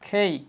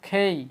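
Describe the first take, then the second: Both takes have the same delivery.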